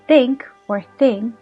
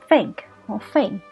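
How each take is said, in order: First: The words begin with a th sound. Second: The words begin with an f sound.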